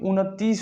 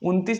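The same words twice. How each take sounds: First: The word is said with a full 'n' sound. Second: The word is said quickly with a clipped 'n'. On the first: The speaker calls it right. "आधा न नहीं होता है बल्कि पूरा न होता है" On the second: The speaker calls it wrong. "झटके में बोलते हैं तो उनतीस नहीं"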